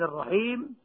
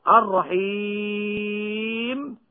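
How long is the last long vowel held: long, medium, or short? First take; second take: short; long. First: The final long vowel is held for two counts. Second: The final long vowel is held for six counts. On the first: "هذه الثلاثة بالسكون المجرد" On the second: "هذه الثلاثة بالسكون المجرد"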